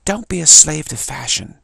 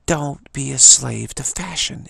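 First: Loud, slow try at a Brooklyn accent; attempted Brooklyn accent. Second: Put-on adamant New York accent, slow and loud. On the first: Shown as a demonstration. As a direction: belt it out in an imperfect Brooklyn accent, higher and slower. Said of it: "It might have been a Brooklyn accent". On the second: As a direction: draw it out firmly like a New Yorker. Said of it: "in her nice New York accent".

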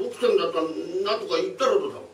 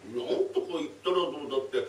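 First: Demanding thief. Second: Said in the usual way. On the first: Acted.

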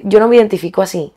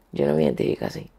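First: Said in the usual way. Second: Sinking low echo of "Yo no me identifico así"; quiet repeat. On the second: Real, not acted. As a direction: repeat "Yo no me identifico así" much lower and softer, to herself.

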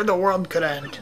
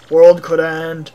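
First: Said in the usual way. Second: Slow, loud echo of WORLD COULD END; lightly voiced Russian, weighing each word; pondering Russian mayor. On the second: Mayor mulls the visitor's warning, slow pondering echo.

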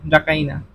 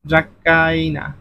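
First: Said in the usual way. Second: Drawn-out ড্রাকাইনা for students; slowly spelled out. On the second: Shown as a demonstration. Teacher spells out answer slowly. (ধীরে ধীরে ড্রাকাইনা)

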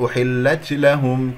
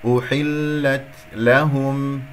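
First: أحلت لهم quicker, with an overdone hiss on the ت; wrong ta release. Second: أحلت لهم slow, with a very light breath on the ت; gentle hams. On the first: Teacher showing the mistake, wrong ta release. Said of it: "خطأ". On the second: Teacher modelling the right way, gentle hams. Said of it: "همس لطيف جدًا". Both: Shown as a demonstration.

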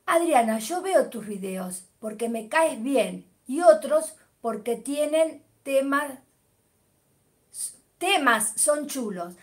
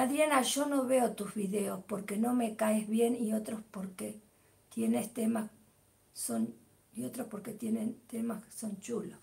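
First: Slower, clear reading aloud; deliberate corrected read; careful reread. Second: Whispered half-reading of a comment; hushed careless read-through; mumbled misreading. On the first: Shown as a demonstration. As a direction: read it properly this time, word by word. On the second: Real, not acted. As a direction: skim it under your breath, getting it wrong. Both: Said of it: "Ah, que lo lea bien".

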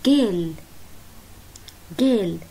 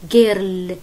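First: جيل with a long schwa and no r; girl without the r. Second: Put-on girl with a hard rolled r, kindergarten style. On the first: Shown as a demonstration. Teacher showing girl, r silent, long schwa. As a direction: say جيل with the r dropped. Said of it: "ما في إر طلع". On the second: Teacher imitating kindergarten girl, r pronounced. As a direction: say girl sounding the r clearly. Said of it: "علمونا إياها تلفظ".

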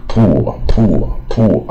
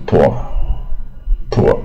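First: "poor" with a long oo vowel, "POO-er". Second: "poor" with a more open vowel, like "pore"; poor with short vowel. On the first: Teacher mimicking the common reading, "poor" with oo. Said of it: "念到乌的音啊". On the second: Teacher modelling the correct sound, "poor" as pore. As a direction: say "poor" as pore, without a long oo. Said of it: "它是也是带耳音". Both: Shown as a demonstration.

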